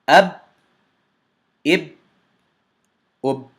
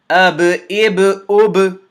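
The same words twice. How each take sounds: First: Each final b stops abruptly with no echo. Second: Each final b ends with a slight echoing bounce. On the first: The speaker calls it wrong. "I closed the articulation point and the sound seems to stop. I didn't echo the sound" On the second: The speaker calls it right. "Correctly first"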